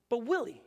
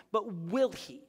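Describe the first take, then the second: First: "will" lifted a little, falling off; stress on will. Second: "will" leaned on, falling; stress on will. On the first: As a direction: press "will" as the doubt. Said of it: "That's faith". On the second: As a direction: lean into "will" as the real question. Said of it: "faith is this". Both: Shown as a demonstration.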